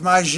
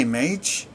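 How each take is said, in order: First: "mage" drawn out in a wrong, fancy two-syllable way; mispronounced MAGE. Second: Said in the usual way. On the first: Shown as a demonstration. Gamer admits misreading a word, mispronouncing "mage". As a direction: stretch "mage" into a mock-foreign word. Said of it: "I thought it was pronounced". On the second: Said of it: "You just say mage?".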